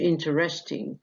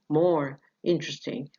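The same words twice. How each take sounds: First: "interesting" as four syllables, "in-te-res-ting"; unreduced, the rejected form. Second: "interesting" shortened to "in-tres-ting"; reduced syllable. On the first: Teacher showing what not to say, all syllables sounded. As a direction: sound every vowel in "interesting". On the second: Teacher showing the reduced form to students, syllable dropped. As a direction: drop the second vowel of "interesting". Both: Shown as a demonstration. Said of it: "مش interesting".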